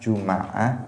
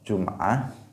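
First: An a vowel follows the m sound. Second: No vowel follows the m sound. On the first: "pakai fathah" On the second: "Pakai sukun"

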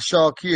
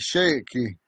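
First: The first vowel sounds like the o in 'shock'. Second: The first vowel sounds like the a in 'shake'. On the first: The speaker calls it wrong. "It's not shocky" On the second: The speaker calls it right. "it's shaky"

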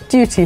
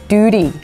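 First: The middle t is a clear t sound. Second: The middle t is a quick flapped sound. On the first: "Duty for us" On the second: "it's the flap T"

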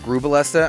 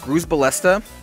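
First: No S sound is pronounced in the middle. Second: An S sound is pronounced in the middle. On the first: The speaker calls it right. "I always say Grubalesta" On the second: The speaker calls it wrong. "I don't know if you're going to pronounce the S on it"

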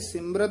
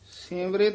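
First: The last syllable is said with an 'a' vowel. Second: The last syllable is said with an 'i' vowel. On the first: The speaker calls it wrong. "ਇਹ ਸਿਮਰਤ ਨਹੀਂ ਕਹਿਣਾ ਹੈ" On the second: The speaker calls it right. "ਰਾਰੇ ਨੂੰ ਸਿਹਾਰੀ ਲਾ ਦੇਣੀ ਹੈ"

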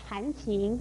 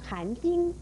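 First: The second syllable is pronounced qing. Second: The second syllable is pronounced jing. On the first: The speaker calls it right. "而含情念成含经也是不正确的" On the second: The speaker calls it wrong. "念成含经也是不正确的"

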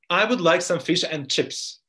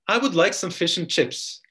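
The two takes are said the same way.

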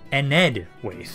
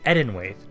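First: The name begins with the sounds 'Ened'. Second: The name begins with the sounds 'Eden'. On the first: The speaker calls it right. "is the actual proper pronunciation" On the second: The speaker calls it wrong. "I've been saying it wrong this entire time. I've been saying Edenwaith"

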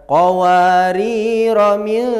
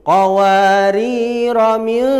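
Both takes have the same delivery.

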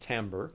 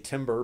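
First: It is said unlike the English word timber. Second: It is said like the English word timber. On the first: The speaker calls it right. "but it's pronounced timbre" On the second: The speaker calls it wrong. "Looks like you might say timber"

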